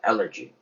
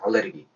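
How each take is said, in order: First: The stress falls on the first syllable, 'a'. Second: It is said in four syllables as al-le-reu-gi. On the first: This is the native English form. The speaker calls it right. "액센트가 앞에 찍히고 에 발음이 됩니다" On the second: This is the older Korean reading. The speaker calls it wrong. "예전에는 알레르기라고 많이 읽었었는데요"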